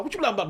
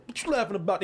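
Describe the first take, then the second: First: Lightly voiced bully kid, raised pitch; imitating the kid. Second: Said in the usual way. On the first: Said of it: "I'm gonna just talk like he talk". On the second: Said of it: "He's like".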